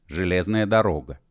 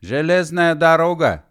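First: Said in the usual way. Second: High, loud exclamation; excited shout. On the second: Acted. Spotting a railway in the desert, high excited shout. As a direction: cry out the discovery.

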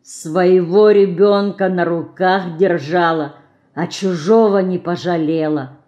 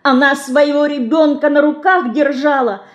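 First: Woman repeating the reproach quietly; quiet bitter echo. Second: Put-on high child's voice, tearful and angry; «держала» thrown out high in anger; tearful angry shout. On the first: Acted. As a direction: echo the child's words in sorrow. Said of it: "добавила словами мышки". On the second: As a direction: accuse the icon through tears. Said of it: "со слезами и гневом кричала мышка".

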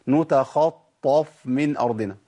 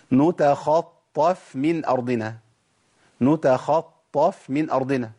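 First: نتخطف with the فاء pushed heavy; heavy faa. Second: نتخطف slow with a light فاء; correct faa. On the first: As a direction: thicken the فاء. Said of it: "الخطأ فين؟". (نتخطف بفاء مفخمة) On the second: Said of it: "ده الصحيح". (نتخطف بفاء مرققة) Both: Shown as a demonstration.

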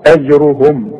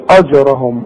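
First: أجرهم with a thin hamza and a heavy را; only the را of أجرهم thick; light hamza. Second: أجرهم with a thick hamza; mock the student's heavy أجرهم; wrong heavy hamza. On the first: Teacher models the correct أجرهم. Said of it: "ادي كل حرف حقه". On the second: Teacher mimics the wrong heavy أجرهم. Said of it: "ما نقولش". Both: Shown as a demonstration.

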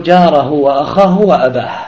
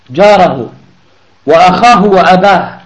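First: Said in the usual way. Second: جاره وأخاه وأباه said louder, each word hammered; emphatic repeat. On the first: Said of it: "جاره وأخاه وأباه يقتله". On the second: Shown as a demonstration. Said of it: "يقتله".

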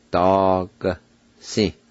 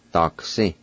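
First: "Dog, si" drawn out in two parts, the G barely released; syllable-by-syllable pronunciation. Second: Said in the usual way. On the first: Shown as a demonstration. Teacher shows the nearly silent G, slow separated syllables in "Dog, si". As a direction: sound out "Dog, si" slowly, pausing between syllables. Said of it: "pronounce the G sound like this". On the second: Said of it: "now I'll pronounce them".

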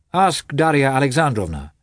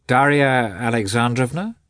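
First: Said in the usual way. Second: Doubtful question rising on "Darya Alexandrovna"; doubtful echo. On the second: A narrator's reading. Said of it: "as if in doubt".

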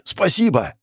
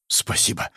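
First: Higher, fully voiced thanks; energetic exclamation. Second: Soft, voiceless thanks; whisper. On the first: Hero jumping to his feet, exclaiming. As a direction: call it out with sudden energy. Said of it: "сразу же подскочил на ноги". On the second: Acted. Hero regaining control, grateful whisper. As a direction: breathe the word in a whisper. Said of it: "прошептал я".

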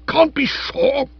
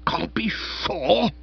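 First: High, loud, slow indignant echo; bristling. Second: Bristling. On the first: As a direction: bristle like a wounded hornet. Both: Acted. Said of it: "Spode bristled like a hornet".

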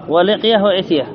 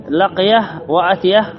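First: ولقيه وأتيه with an "i" opening: liqya, itya; kasra on first letter. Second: لقيه وأتيه with an "a" opening: laqya, atya; fatha on first letter. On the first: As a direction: say ولقيه وأتيه with a short "i" starting each noun. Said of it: "وبالكسر في الهيئة". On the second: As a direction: say لقيه وأتيه slowly, each starting with a short "a". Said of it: "بالفتح في المرة". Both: Shown as a demonstration.

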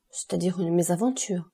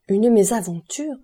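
First: Said in the usual way. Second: Louder and slower, rising in disbelief; shocked baronne repeating the word; indignant exclamation. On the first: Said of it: "avec son calme imperturbable". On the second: A narrator's reading. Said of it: "s'écria la baronne".

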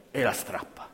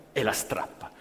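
The two takes are said the same way.

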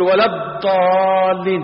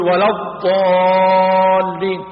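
First: "ولا الضالين" slow, with a mispronounced ḍaad; a slow faulty "ولا الضالين"; imitating a faulty recitation. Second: "ولا الضالين" chanted slowly, long heavy ḍaad; slow recitation. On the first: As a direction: mimic someone reading "ولا الضالين" badly. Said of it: "هو يقول". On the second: Shown as a demonstration. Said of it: "قول".

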